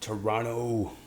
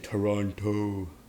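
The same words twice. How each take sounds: First: The second T is dropped, local style. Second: The second T is pronounced, outsider style.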